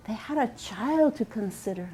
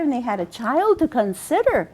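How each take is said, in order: First: Softer echo. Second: Said in the usual way. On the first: A narrator's reading. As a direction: repeat it much softer, as an echo. Echoed repeat, much softer.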